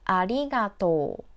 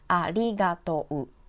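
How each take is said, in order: First: The final o and u merge into one long o. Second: The final o and u are sounded separately. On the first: The speaker calls it right. "Please read them all together" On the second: The speaker calls it wrong. "Don't read them separately"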